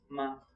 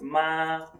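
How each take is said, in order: First: The syllable is short and light, with no tone. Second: The pitch stays high and level. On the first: "the tone that is no tone"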